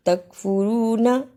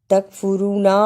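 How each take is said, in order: First: तकफुरूना with long rū, short final a; correct reading. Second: तकफुरूना with a long final ā; wrong lengthening. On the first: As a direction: hold rū and clip the end of तकफुरूना. (तकफुरूना, रू लंबा, न छोटा) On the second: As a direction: drag out the last vowel of तकफुरूना. (तकफुरूना, आख़िरी ना खींचकर) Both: Shown as a demonstration. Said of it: "इसको भी लंबा नहीं करना".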